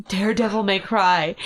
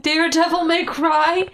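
First: Said in the usual way. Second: High, loud, drawn-out exclamation; delighted disbelief. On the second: Real, not acted. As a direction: pounce on the slip, incredulous. Delighted reaction to the slip.

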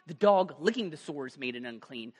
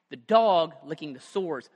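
First: Said in the usual way. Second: "dog" hit louder and slow; stress on dog. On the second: Shown as a demonstration. Preacher drives home the dog licking the sores, stressing "dog". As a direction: lean on "dog", slowly.

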